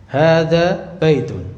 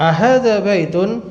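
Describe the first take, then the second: First: "Hadza baitun" slow, falling at the end; answer intonation. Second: "Ahadza baitun" higher, rising at the end; question intonation. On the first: Teacher gives the answer that it is a house, falling statement tune. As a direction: state "Hadza baitun" slowly and let it drop. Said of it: "maka jawabannya". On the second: Teacher asks whether the picture is a house, questioning tune. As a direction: ask "Ahadza baitun?" with a lifted voice. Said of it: "intonasinya gitu". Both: Shown as a demonstration.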